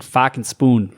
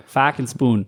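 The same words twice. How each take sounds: First: Slow Boston accent phrase. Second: Softer Boston accent phrase; fucking spoon, Boston vowels, trailing off. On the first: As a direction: drop the r, say fucking spoon Boston style. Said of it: "Like for, like, for Boston". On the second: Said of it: "kinda do a Boston accent". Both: Shown as a demonstration.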